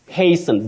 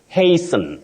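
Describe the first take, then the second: First: The T sound is silent in the word. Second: The same.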